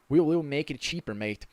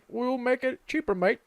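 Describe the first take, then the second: First: It is said in the speaker's normal accent. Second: It is said in an imitated British accent.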